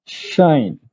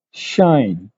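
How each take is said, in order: Both takes have the same delivery.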